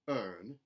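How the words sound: The R sound is lightly pronounced. "a contemporary Southern, where those R colorations are put back in"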